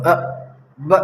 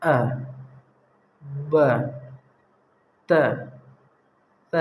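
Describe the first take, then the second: First: Each letter jerked out short and sharp; jerky rushed letters. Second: Each letter said gently with long pauses between; calm unhurried letters. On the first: Teacher mimics a pupil's jerky rushed reading. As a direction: hurry and jolt the letters out like a careless reader. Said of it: "جھٹکا نہیں مارنا، جیسے کچھ لوگ جلدی پڑھنے کے چکر میں جھٹکا مار". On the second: Teacher shows the calm, unhurried way to read letters. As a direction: take your time, settle on each letter. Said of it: "آرام سے بولنا". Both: Shown as a demonstration.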